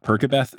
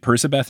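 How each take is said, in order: First: The consonant after Per is a k sound. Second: The consonant after Per is an s sound. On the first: The speaker calls it wrong. "anyone who does Perkabeth, you are incorrect" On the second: The speaker calls it right. "he pronounced it Percibeth"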